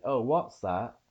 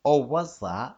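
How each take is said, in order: First: "what's" with a stopped T before the S; Cockney "what's that", cut short before the S. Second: "what's" said as "wuss", no stop before S; louder, higher Cockney try sliding into the S; S without stop. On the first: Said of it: "stop like there is a T". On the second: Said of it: "just going like it's an S". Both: Shown as a demonstration.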